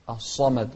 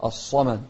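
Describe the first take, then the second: No difference in how they are said.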